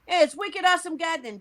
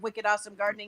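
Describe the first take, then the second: First: It is said in a Boston accent. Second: It is said in a general American accent.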